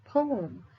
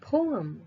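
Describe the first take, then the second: First: It is said with an American pronunciation. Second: It is said with an American pronunciation.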